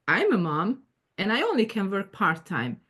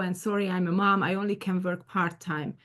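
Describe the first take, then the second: First: It sounds confident, like a firm statement. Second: It sounds apologetic and hesitant.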